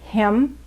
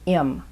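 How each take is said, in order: First: The word is said in full with h. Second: The word is reduced, dropping the h.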